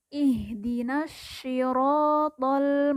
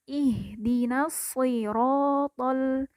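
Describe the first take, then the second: First: The s of siratal sounds like sh. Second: The s of siratal is heavy and emphatic. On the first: The speaker calls it wrong. "diucapkan mirip seperti huruf shin" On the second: The speaker calls it right. "lidah bagian pangkal agak terangkat"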